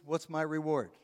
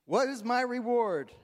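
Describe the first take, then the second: First: Mock selfish quip, light and dry; joking self-interest. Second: Higher, louder, hammed-up demand "What is my reward?"; emphatic repeat. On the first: Husband answering his wife's request, mock selfish. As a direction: toss it off as a cheeky husband. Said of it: "my response is". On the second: Shown as a demonstration. Preacher repeating the joke to congregation, louder and higher. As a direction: belt out "What" as a mock greedy plea. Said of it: "If you're married, you know".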